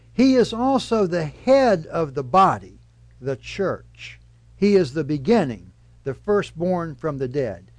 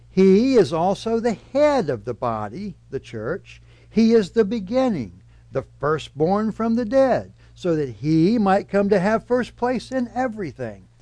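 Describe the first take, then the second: First: "body" and "the church" punched as the key words; stress on body and church. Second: "He" and "head" pressed hard, "body" and "church" left light; stress on he and head. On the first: Pastor demonstrating the common misreading, stressing "body" and "church". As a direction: lean on "body" and "church", not on "He". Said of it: "Did you hear my verbal emphasis". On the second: Pastor rereading the verse with emphasis moved onto "He" and "head". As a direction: lift "He" and "head" so Christ carries the sentence. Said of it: "with an alternative emphasis".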